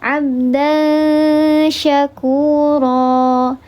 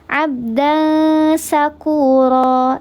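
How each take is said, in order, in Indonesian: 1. Kata kedua dimulai dengan bunyi 'sh'. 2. Kata kedua dimulai dengan bunyi 's'. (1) "Di situ ada huruf sya" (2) "ketika sya-nya itu kita baca sin"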